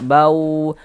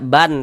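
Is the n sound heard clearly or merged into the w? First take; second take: merged; clear. First: The n merges into a nasalized w sound. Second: The n sound is pronounced clearly before w. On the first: The speaker calls it right. "tapi dibaca bau, kemudian digunnahkan" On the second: The speaker calls it wrong. "jangan dibaca ban"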